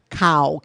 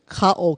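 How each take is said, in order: First: The vowels run together without a glottal stop. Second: A glottal stop separates the two vowels. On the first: The speaker calls it wrong. "as opposed to cow" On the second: The speaker calls it right. "K A, okina, o"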